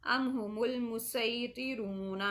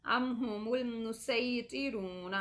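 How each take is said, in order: First: मुसैतिरून slow, with a thick, heavy s; मुसैतिरून with a heavy emphatic s; heavy sad. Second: मुसैतिरून slow, with a light, thin s; मुसैतिरून with a hissing s; thin seen. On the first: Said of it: "ये स्वाद हो गया". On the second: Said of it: "ये सीन हो गया". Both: Shown as a demonstration.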